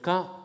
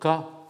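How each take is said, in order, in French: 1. Le mot est prononcé sur un ton haut. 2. Le mot est prononcé sur un ton moyen. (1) "ton haut" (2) "ton moyen"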